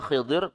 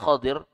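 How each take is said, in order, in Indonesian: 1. Vokal pertama dari nama itu adalah i. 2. Vokal pertama dari nama itu adalah a. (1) "boleh dibaca Khidir" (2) "boleh dibaca Khadir"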